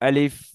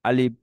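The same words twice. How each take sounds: First: The lips stay apart, with air released at the end. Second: The lips close together on the final sound. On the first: The speaker calls it right. "এবার ঠিক আছে?" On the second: The speaker calls it wrong. "এটা দুই ঠোঁট মিলে গিয়েছে"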